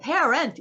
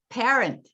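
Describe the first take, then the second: First: The unstressed vowels are said fully and clearly. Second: The unstressed vowels are weak schwa sounds. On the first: The speaker calls it wrong. "그러지 않으면 what 이렇게 되는 거죠" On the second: The speaker calls it right. "이렇게 하면 돼요"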